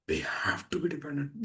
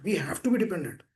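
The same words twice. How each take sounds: First: Softly whispered, breath only. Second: Said in the usual way. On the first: Acted. Preacher whispering to devotees to make it sink in. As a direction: drop to a whisper to drive it home. Repeats key line in hushed voice.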